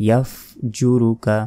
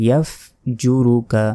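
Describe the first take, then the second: The two takes are said the same way.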